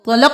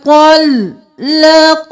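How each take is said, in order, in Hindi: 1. L की आवाज़ छोटी और एक ही बार बोली जाती है। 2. L की आवाज़ को लंबा और दोहरा बोला जाता है।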